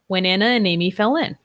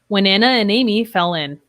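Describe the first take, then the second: First: The words run together with linked sounds. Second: The same.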